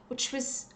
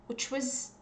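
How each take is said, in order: No difference in how they are said.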